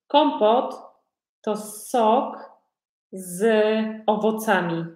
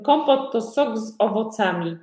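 First: Word-by-word definition. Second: Said in the usual way. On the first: Shown as a demonstration. Teacher explains kompot to learners, piece by piece. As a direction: break it up for beginners.

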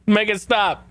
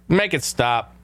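First: Pitched-up mock plea; exasperated higher make it stop; higher pleading repeat. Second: Said in the usual way. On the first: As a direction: beg it to stop, voice jumping up. Begging the sound clip to stop.

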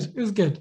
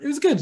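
First: Said in the usual way. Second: Pitched high and pleased; high and gleeful; proud high relish. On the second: Real, not acted. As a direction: savour it with a lift. Savouring the moment, then repeating.

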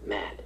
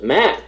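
First: Said much softer, an offstage prompt; quiet correction. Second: Much higher rising Matt, half asking; repeating questioningly. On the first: Producer quietly correcting the director from behind, soft prompt. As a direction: murmur the right name from behind. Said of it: "I hear her say". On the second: Director repeating the corrected name, high questioning rise. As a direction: echo the name back as a question. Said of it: "He goes". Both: Retold or imitated.

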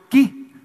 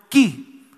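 First: "ki" called out higher and louder for all to repeat; calling it together. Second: "ki" said once, short and clear, as a model; Hebrew word demo. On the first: Pastor leads the congregation in saying "ki", called out loud. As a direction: lead the room in "ki", loud and bright. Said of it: "A ver, digan conmigo". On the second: Pastor shows the congregation the Hebrew "ki", calmly. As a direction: give them the Hebrew word "ki" to copy. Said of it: "Es el hebreo". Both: Shown as a demonstration.

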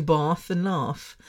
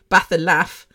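First: "bath and laugh" with the long AH of father; long-A pronunciation. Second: "bath and laugh" with the short A of cat; short-A pronunciation. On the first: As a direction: slowly say "bath and laugh" with broad southern vowels. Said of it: "I do bath and laugh". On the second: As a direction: say "bath and laugh" with flat northern English vowels. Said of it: "I don't do bath and laugh". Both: Shown as a demonstration.

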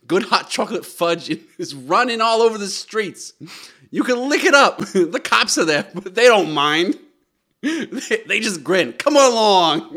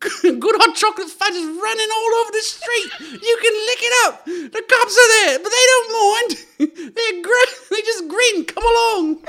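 First: Loud, raised mock Boston accent; excited Boston child. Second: Very high, loud squeaky urchin; little scamp. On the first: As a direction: build to a shouted Boston kid's call. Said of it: "who has a strong Boston accent". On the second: Acted. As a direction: squeal it through giggles like a waif. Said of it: "can I hear it as a scamp".

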